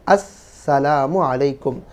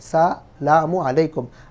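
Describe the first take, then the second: First: It begins with an 'as' sound before 'salamu'. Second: It begins directly with 'salamu', dropping the opening sound. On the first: It wishes the other person mercy. The speaker calls it right. "अस्सलामु अलैकुम है" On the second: It wishes the other person death. The speaker calls it wrong. "हम शुरू का अलिफ खा जाते हैं"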